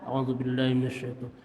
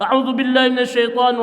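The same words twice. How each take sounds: First: It is said quietly, almost under the breath. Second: It is said aloud in a full voice. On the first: "dengan sir, dengan pelan" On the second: "Bisi aya nu dikeraskeun baca ta'awudz"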